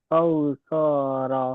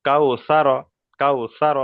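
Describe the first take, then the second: First: কাউসারা with the vowels dragged out very slowly; drawn-out কাউসারা, the mistake the teacher flags; wrongly stretched reading. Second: কাউসার read quickly, with no lengthening on কাউ; correct unstretched reading. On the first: (ভুল করে কাউসারা টেনে টেনে পড়া) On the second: (শুদ্ধ উচ্চারণ, কাউ-এ কোনো টান ছাড়া) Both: Shown as a demonstration. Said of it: "কাউসা টান হবে না".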